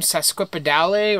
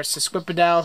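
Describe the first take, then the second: First: Sesquipedale with a final sounded "lay"; alternative pronunciation. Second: Sesquipedale said the other way, without the "lay" ending; alternative pronunciation. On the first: Grower offers one way to name the orchid, sesquipedale ending in "lay". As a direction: say sesquipedale with its last e voiced as "ay". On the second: Grower offers another way to name the orchid, sesquipedale with a silent final e. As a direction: make sesquipedale end like "pedal" or "dal". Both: Shown as a demonstration. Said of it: "however you wanna pronounce it".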